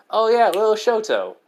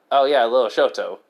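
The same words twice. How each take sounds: First: High, loud burst of remembering; light up at the memory, pitched high; excited recollection. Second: Said in the usual way. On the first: Acted. Izuku remembers his little brother, excited and high.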